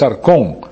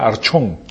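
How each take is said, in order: First: The consonant after the r is a k sound. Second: The consonant after the r is a ch sound. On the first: The speaker calls it right. "pero es arcón" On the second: The speaker calls it wrong. "Si lo puedes pronunciar en español, sería archón"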